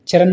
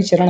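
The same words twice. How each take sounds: First: चरण mispronounced as "charan", plain n; dental na. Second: चरण ending in a curled ṇ; retroflex ṇa. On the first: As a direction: end चरण with the tongue forward. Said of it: "चरण नहीं". (चरण को "चरन" बोलें) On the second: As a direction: curl the tongue back to finish चरण. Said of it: "चरण होते हैं". (चरण के अंत में "ण" बोलें) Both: Shown as a demonstration.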